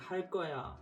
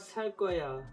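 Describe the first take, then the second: First: The first word begins with an h sound. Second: The first word begins with an s sound. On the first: "when you say 할 거야" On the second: "He changes the H's to an S sound. Can you mimic how he says it?"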